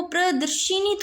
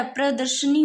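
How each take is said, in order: First: प्रदर्शिनी with shi before the ni; प्रदर्शिनी as pra-dar-shi-ni; wrong shi syllable. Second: प्रदर्शनी with sha before the ni; प्रदर्शनी as pra-dar-sha-ni; sha, not shi. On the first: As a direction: lean on the shi in प्रदर्शिनी, higher. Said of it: "शी थोड़ी होता है". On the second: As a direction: correct it to प्रदर्शनी, no i after sh. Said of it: "अभी शी नहीं होता". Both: Shown as a demonstration.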